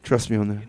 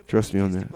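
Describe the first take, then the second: No difference in how they are said.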